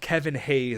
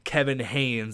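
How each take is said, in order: First: The surname ends without an n sound. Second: The surname has an n sound before s. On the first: The speaker calls it right. "the first thing is it's Kevin Hayes" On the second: The speaker calls it wrong. "I just threw a random N in there"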